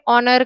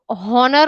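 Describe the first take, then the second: First: The word starts with a vowel, no h. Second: The word starts with a sounded h. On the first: The speaker calls it right. "આપણે honor કહીએ છીએ" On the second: The speaker calls it wrong. "H આપણે honor નથી કહેતા"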